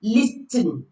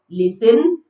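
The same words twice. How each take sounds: First: Listen said wrongly as lis-ten; listen with T pronounced. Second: Listen said correctly as lissen; listen with silent T. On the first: Teacher showing learners what we don't say, T sounded in listen. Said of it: "we don't say". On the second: Teacher correcting for learners, no T in listen. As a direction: drop the T in listen. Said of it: "You don't pronounce the T". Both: Shown as a demonstration.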